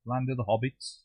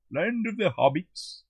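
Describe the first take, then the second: First: Said in the usual way. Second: High, slow, drawn-out delivery; hammed-up repeat. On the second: Midlander joking about Middle Earth, hammed-up and high. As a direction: stretch it out like a grand announcement.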